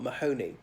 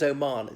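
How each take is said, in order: First: An H sound is pronounced in the name. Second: The H is silent in the name. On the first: The speaker calls it wrong. "It's not Mahoney" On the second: The speaker calls it right. "The H is silent"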